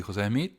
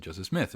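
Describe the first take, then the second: First: "José Smith" said the Spanish way, José as jo-SEH; "José Smith" with a plain Spanish José; Spanish pronunciation. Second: "Joseph Smith" said the English way, JO-seph; "Joseph Smith" with an American English Joseph; English pronunciation. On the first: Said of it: "en vez de decir José Smith". ("José Smith" dicho a la española) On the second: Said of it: "estoy acostumbrado a decir Joseph Smith". ("Joseph Smith" dicho en inglés, a la americana) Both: Shown as a demonstration.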